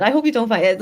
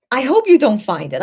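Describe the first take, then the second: First: Said in the usual way. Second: Louder, pleading hope; emphatic. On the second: Shown as a demonstration. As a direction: press the wish out firmly.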